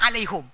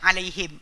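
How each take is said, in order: First: The final syllable has a 'u' vowel. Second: The final syllable has an 'i' vowel. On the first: This is how another tribe says it. "Dia baca alaihum" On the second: This is how the Quraysh tribe says it. "kalau ikut bahasa Quraisy"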